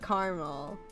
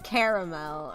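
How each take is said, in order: First: It is said in a regional pronunciation. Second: It is said in a non-regional pronunciation. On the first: This is how the speaker's region says it. "I say caramel. Yeah, sorry, my regional accent comes out sometimes" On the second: This is how other people say it. "I didn't say caramel or caramel or whatever the hell other people say"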